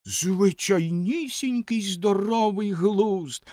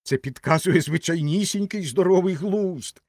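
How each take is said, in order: First: High, drawn-out scornful echo; slow high-pitched indignation; indignant snort. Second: High, emphatic assertion; mildly spirited exclamation; somewhat heartened. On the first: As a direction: throw the words back slowly and indignantly. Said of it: "обурено пирхнула Ракета". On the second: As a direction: declare it in a raised, encouraged voice. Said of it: "вже трохи піднісся духом". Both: A narrator's reading.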